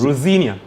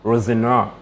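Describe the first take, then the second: First: The name is said with an English pronunciation. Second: The name is said with a French pronunciation. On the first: "But English is Rosinia" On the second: "says it's Rosenoir"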